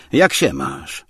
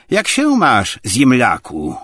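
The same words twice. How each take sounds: First: Understated, uninterested greeting back; indifferent reply. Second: Loud, high-pitched brash hail; brash greeting. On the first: Obłomow replies while looking out the window, indifferent. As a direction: answer without any welcome. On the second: Tarantiew walks in without offering a hand, brash greeting. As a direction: greet him loudly and rudely. Rude visitor greets his host. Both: A narrator's reading.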